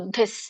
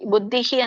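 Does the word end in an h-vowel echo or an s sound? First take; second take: s sound; h-vowel echo. First: The word ends with a short s sound. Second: The word ends with an h sound and echoed i. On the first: "ಸರಿಯಾಗಿ ಬರೋ ಉಚ್ಚಾರಣೆ ಏನು ಅಂದ್ರೆ ಬುದ್ಧಿಸ್" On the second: "ಬುದ್ಧಿಹಿ ಅಂತ ಇದೆಯಲ್ಲ"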